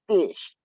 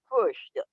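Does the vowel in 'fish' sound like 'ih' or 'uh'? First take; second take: ih; uh. First: The vowel is the standard short 'ih' sound. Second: The vowel is a 'u' sound, like 'fush'.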